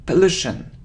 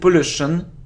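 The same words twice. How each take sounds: First: The first vowel is a weak 'a' sound. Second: The first vowel is a full 'or' sound. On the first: The speaker calls it right. "It's a weak sound of a" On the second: The speaker calls it wrong. "It isn't or, it's a again"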